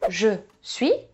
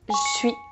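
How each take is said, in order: First: The vowel of je is fully pronounced. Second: The vowel of je is dropped.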